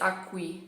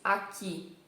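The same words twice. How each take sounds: First: The middle sound is a kw sound. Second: The middle sound is a plain k. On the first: The speaker calls it wrong. "No português não se diz aqui" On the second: The speaker calls it right. "se diz aqui"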